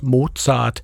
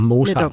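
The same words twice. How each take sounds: First: The name is pronounced the German way. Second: The name is pronounced the Danish way. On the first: "den tyske udtale af Wolfgang Amadeus Mozart" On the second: "man kalder ham Mozart på dansk"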